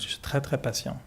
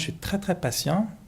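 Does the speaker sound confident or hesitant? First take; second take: confident; hesitant. First: It is said in a plain, confident, sincere way. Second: It is said hesitantly, as if holding something back. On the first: The claim is genuinely true. "ça va être vrai" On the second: A reservation or limit is about to follow. "là on sent le mais qui arrive"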